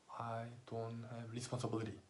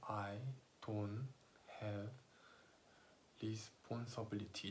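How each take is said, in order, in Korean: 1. 마지막 단어는 원어민 영어 발음이에요. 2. 마지막 단어는 한국식 발음이에요. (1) "responsibility를 막 정확하게 발음을 제대로 알고 있다 그러면" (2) "천천히 말하면"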